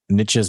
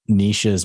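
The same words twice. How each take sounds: First: The word rhymes with riches. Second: The word does not rhyme with riches. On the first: The speaker calls it right. "niches make riches" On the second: The speaker calls it wrong. "I was pronouncing it wrong, or the way I pronounce it"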